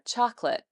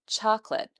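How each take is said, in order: The two takes are said the same way.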